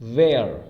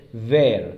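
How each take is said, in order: First: The vowel sounds like the one in 'hair'. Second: The same.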